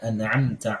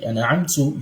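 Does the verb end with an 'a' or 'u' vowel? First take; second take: a; u. First: The verb ends with an 'a' vowel. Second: The verb ends with an 'u' vowel. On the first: God is the one who bestowed the mercy. The speaker calls it right. "the path of those whom you bestowed your mercy upon" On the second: The speaker claims to have bestowed the mercy. The speaker calls it wrong. "you're changing the, the vowel sound, Dhamma, of Fatha to Dhamma"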